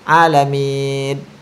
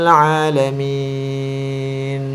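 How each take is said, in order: First: The final n loses its hum, sounding like d. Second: The final n carries a short nasal hum. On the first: The speaker calls it wrong. "kalau kita tidak dengungkan" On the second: The speaker calls it right. "misalnya seperti ini"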